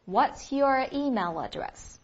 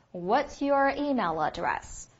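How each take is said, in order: First: Slow, clear repeat of the question. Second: Slow, clear "What's your email address"; slow model question. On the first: Teacher repeats the question slowly for students to copy. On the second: Teacher models the English question slowly for students. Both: Shown as a demonstration. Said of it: "应该怎么问来着".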